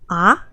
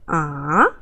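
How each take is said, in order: First: The pitch rises from middle to high. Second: The pitch dips low, then rises again. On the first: "a go up tone, like you have a question" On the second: "go down a little bit and go up"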